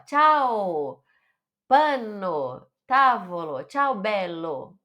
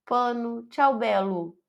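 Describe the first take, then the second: First: "Tchau", "Pano", "tavolo", "ciao bello" all ending in open O, lively. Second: "pano", "ciao bello" ending in a closed U, flat; closed dull ending. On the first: Teacher shows the lively Italian ending with open O. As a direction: sound cheerful and Italian. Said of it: "dá aquela animada". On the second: Teacher shows how the closed U deflates the words. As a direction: let the ending fall shut and lifeless. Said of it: "é meio que fecha, dá uma desanimada". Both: Shown as a demonstration.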